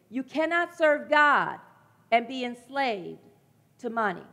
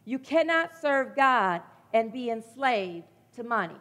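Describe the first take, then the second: First: Each phrase spaced out and slowed, serve pressed; slow emphatic repeat. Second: Said in the usual way. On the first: Shown as a demonstration. Preacher repeating the verse so it sinks in, slow and weighty. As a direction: land it slowly, phrase by phrase. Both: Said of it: "Let me say that again".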